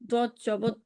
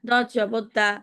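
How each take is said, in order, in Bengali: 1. শেষের স্বরধ্বনিটি হ্রস্ব রাখতে হবে। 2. শেষের স্বরধ্বনিটি টেনে দীর্ঘ করে পড়তে হবে।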